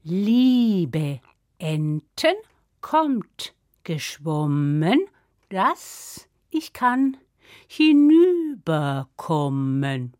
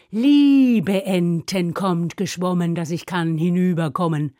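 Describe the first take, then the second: First: Very slow, stretched-out spell chanting; magic incantation. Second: Low, slowish chant with a stretched opening; recited spell. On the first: Acted. Sister calls ducks to cross river, incanting. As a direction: intone each word solemnly, vowels drawn long. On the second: Shown as a demonstration. Narrator reminds listeners of the correct spell, reciting. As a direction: recite the spell, leaning long on the first word.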